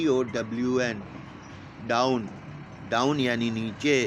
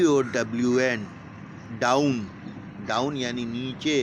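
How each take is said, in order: Both takes have the same delivery.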